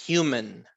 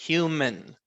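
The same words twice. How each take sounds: No difference in how they are said.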